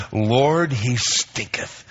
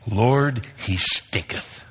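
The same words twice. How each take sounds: First: Slow, with "stinketh" drawn out; savoring King James. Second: Slow, hushed, savoring "stinketh"; drawn-out breathy "he stinketh"; relishing King James. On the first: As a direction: relish every sound of "stinketh". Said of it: "that is so great". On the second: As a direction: linger on "stinketh" in a near whisper. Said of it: "I love this verse out of the King James". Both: Shown as a demonstration.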